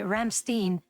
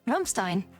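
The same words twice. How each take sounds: First: It is said with an American pronunciation. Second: It is said with a non-American pronunciation.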